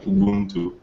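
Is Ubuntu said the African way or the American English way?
African. It is said with the original African pronunciation. "the original African word would be"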